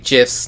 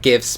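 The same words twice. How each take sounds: First: It begins with a soft J sound. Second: It begins with a hard G sound. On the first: This is the speaker's own way of saying it. The speaker calls it right. "I say GIFs" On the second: It can be confused with giving gifts. The speaker calls it wrong. "not GIFs, because it always confuses people"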